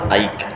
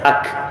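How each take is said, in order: First: The vowel glides from a toward i. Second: The vowel is a plain short a. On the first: The speaker calls it wrong. "tapi ada yang sebut aik" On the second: The speaker calls it right. "yang saya belajar alif kaf mati di atas ak"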